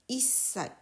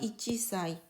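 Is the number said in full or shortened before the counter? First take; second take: shortened; full. First: The number is shortened before the counter. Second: The number keeps its full form before the counter. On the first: The speaker calls it right. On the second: The speaker calls it wrong.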